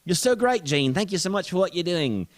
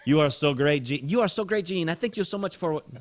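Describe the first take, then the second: First: Put-on high, loud British-accented thanks; British gushing. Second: High mock gushing, no British accent; gushing thanks. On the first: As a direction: gush gratefully in a British accent. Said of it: "well, she's British". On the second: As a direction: gush like a grateful fan. Acting gushing Vicky, first attempt.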